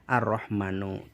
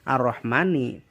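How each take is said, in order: First: The word ends with a u vowel. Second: The word ends with an i vowel. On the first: The speaker calls it wrong. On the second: The speaker calls it right. "dibaca ar-Rahmani"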